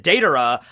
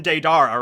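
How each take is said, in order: First: Deidara said DAY-duh-ruh; Deidara with a light ending after DAY; correct pronunciation. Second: Deidara said day-DAR-uh; Deidara with a stressed "dar"; habitual mispronunciation. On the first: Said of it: "they pronounce it Deidara". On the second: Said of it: "just keep calling him Deidara". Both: Shown as a demonstration.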